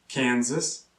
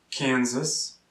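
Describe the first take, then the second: No difference in how they are said.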